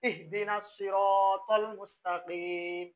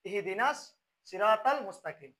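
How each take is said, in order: First: The t in siratal is heavy and emphatic. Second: The t in siratal is light and plain. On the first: The speaker calls it right. "কিন্তু যদি শুদ্ধ হবে কিরকম" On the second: The speaker calls it wrong. "আমি প্রথমে তা দিয়ে পড়ি"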